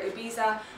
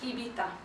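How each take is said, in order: First: The word is said with a non-Spanish pronunciation. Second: The word is said with a Spanish pronunciation. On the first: The speaker calls it wrong. "Please do not say Ibiza or Ibiza, anything like that" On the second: The speaker calls it right. "It's Spanish Ibiza"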